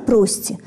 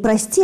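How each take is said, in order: First: The stress is on the first syllable. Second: The stress is on the second syllable. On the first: It is the liturgical word with unusual stress. "произносится с таким странным ударением" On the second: It is the ordinary word asking forgiveness. "Не «прости»"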